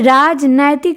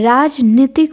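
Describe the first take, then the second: First: The second syllable has the vowel 'ai'. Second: The second syllable has the vowel 'ee'. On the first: The speaker calls it wrong. "नहीं होता है" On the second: The speaker calls it right. "होता है"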